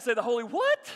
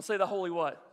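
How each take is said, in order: First: Loud question, "what" shooting up high; incredulous WHAT. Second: Said in the usual way. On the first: Shown as a demonstration. Preacher coaching congregation to say it, incredulous on "what". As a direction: hit "what" loud with a sharp rise. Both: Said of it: "say it like that".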